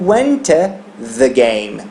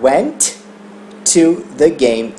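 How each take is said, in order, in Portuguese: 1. Os dois sons de t se fundem em um só. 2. Os dois sons de t são pronunciados separadamente. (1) "Eu vou juntar esses dois" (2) "eu não vou falar went to the game"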